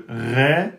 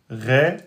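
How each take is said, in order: Both takes have the same delivery.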